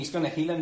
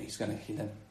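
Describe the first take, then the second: First: It is said in an excited, delighted tone. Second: It is said in a grudging, disapproving tone. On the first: The healing is welcomed as wonderful news. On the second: The healing is expected with suspicion and resentment.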